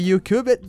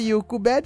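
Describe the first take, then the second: First: It is said with an English accent. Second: It is said with a Brazilian Portuguese accent. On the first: "sabendo que é YouCubed" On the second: "YouCubed é mais fácil de eu falar com o meu sotaque carioca"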